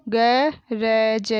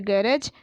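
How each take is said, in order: First: गरज drawn out as ga, ra, ja; very slow गरज, each letter held apart; spelled out. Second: Said in the usual way. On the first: Shown as a demonstration. Teacher sounding out गरज for pupils, syllable by syllable. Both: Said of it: "मैंने इस तरीके से पढ़ा".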